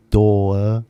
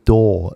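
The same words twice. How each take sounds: First: Door said the British way, as dɔə with no r; ドアをイギリス英語で、rを落として dɔə; British accent. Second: Said in the usual way. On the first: Shown as a demonstration. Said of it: "British people say door". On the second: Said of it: "Well, it's not".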